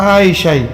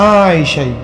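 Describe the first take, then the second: Both takes have the same delivery.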